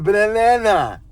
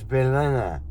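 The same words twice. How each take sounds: First: The word sounds garbled, as if tongue-tied. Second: The word is pronounced in the ordinary way. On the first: This imitates someone else's mispronunciation. The speaker calls it wrong. "he would say, eh, banana. I'm maybe exaggerating it a little bit" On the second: This is the usual pronunciation. The speaker calls it right. "but it's banana"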